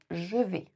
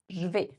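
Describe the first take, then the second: First: The vowel of 'je' is fully pronounced. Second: The vowel of 'je' is dropped, contracted. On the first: "Pour je vais" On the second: "on va le contracter en je vais"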